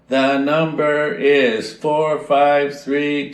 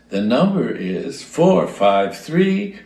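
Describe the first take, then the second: First: The pitch stays flat and mechanical throughout. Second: The pitch rises and falls with natural inflection. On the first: It sounds like a robot, not a person. The speaker calls it wrong. "they all sounded like that" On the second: It sounds like a real person speaking. The speaker calls it right. "it's unnatural to speak without inflection"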